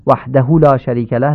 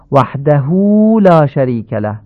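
First: «وحده» with the hu cut short; unlengthened hu; wrong clipped vowel. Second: «وحده» with the hu drawn long; lengthened hu in «وحده»; correct lengthening. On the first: Teacher recapping the clipped «وحده» mistake. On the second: Teacher recapping the right «وحده». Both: Shown as a demonstration. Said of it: "نشه".

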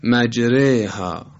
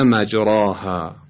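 First: Slow مجریها, alef tilted toward a long kasra, 'reyha'; imala on مجریها. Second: مجراها with a full open long 'aa' after ر; no imala, heavy ra. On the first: Teacher repeating the correct recitation, مجریها with imala. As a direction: say مجریها as majreyha with a thin r. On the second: Teacher showing how not to read it, مجراها without imala. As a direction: draw out مجراها slowly as majraaha. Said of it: "و نه مجراها". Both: Shown as a demonstration.

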